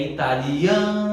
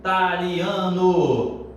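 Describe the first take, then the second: First: "italiano" with the A of "lia" held long; slow "italiano", sustained on the stressed A; drawn-out stress on A. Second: Slow mock student chant of "Italiano", punching the first I; chanted, hit the initial I of "Italiano" hard, then drag out the rest; wrongly chanted on I. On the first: Shown as a demonstration. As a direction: chant "italiano", stretching the A before a short "no". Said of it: "cantar conforme a pronúncia da palavra". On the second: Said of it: "E eu mostro o cantor assim".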